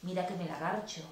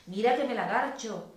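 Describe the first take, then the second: First: Said in the usual way. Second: Emphatic repeat. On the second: A narrator's reading. Lover repeating the arousing phrase at the ear, louder and emphatic. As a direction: say it with more force and lift. Same line repeated with more force.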